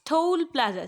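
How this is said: It is said in a gentle, friendly tone. The learner is being corrected kindly. The speaker calls it right. "आप उसको प्यार से समझाओ"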